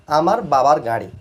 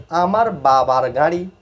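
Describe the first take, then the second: First: Said in the usual way. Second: Slow model reading. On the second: Shown as a demonstration. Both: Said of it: "তারপর হচ্ছে গাড়ির উচ্চারণ হচ্ছে গাড়ি".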